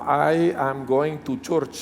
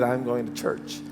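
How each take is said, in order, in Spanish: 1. Se pronuncia con acento español, en la parte delantera de la boca. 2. Se pronuncia con acento nativo, en la parte trasera de la boca. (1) "todo lo hacemos acá adelante y nos sale así" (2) "que todo se habla acá"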